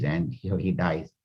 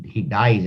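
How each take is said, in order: First: Much softer, fading away on dies; quiet solemn close. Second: Said in the usual way. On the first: A narrator's reading. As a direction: let the words die out softly. Repeating the king's death, fading.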